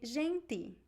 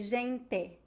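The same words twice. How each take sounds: First: It ends with a plain t and an i vowel. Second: It ends with a plain t and an e vowel. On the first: This is how people in Recife say it. "In Recife, they would say gente" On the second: This is how people in Paraná say it. "in Paraná they would say gente ... the E sound at the end"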